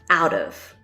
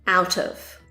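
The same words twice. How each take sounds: First: A soft D sound links into 'of'. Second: A clear T sound links into 'of'. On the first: "the T in the word out pronounced as a D" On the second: "and then tov"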